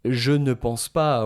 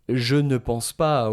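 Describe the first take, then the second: First: The negative word 'ne' is pronounced. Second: The same.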